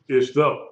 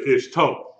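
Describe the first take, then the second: First: "Ish though" with a soft th in "though"; soft TH sound. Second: "ish toe" with a hard t in "toe"; hard T sound. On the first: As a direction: say "though" with TH, not a hard T. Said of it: "could actually be a T H sound". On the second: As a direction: say "toe" with a crisp T, not TH. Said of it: "the hard T sound". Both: Shown as a demonstration.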